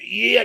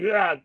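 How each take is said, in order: First: It is said in an overexcited, hyped way. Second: It is said in a calm, measured way. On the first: The speaker sounds too giddy to be taken seriously. The speaker calls it wrong. "not super like like oh yeah, not like that" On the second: The speaker sounds serious and composed. The speaker calls it right. "be a little bit like, hmm"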